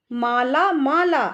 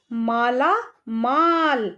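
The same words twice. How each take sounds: First: माला माला with an extra aa on the end; wrong reading. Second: माला माल read slowly, last माल short with no final aa; correct reading. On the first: Teacher to kids showing the wrong reading, demo mistake. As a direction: show the mistake, stretching माला twice. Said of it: "हमें माला माला नहीं लिखना है". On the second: Teacher to kids showing the right reading, slow and clear. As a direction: say माला माल, ending cleanly on माल. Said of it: "हमें लिखना है माला माल". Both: Shown as a demonstration.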